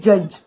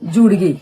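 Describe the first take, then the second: First: It is said as one syllable, judge. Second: Every written letter is sounded, like jud-gay.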